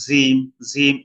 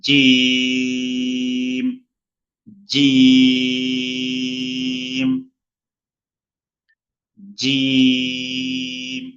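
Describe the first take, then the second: First: জিম said thin and light; wrong thin jim. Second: জিম heavy, drawn out slow; long thick jim. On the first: Teacher imitates students' mistake, thin জিম. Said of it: "এইভাবেই বলে". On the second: Teacher drills correct Arabic letter, long thick জিম. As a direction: hold a full-mouthed জিম. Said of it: "সহি হলো". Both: Shown as a demonstration.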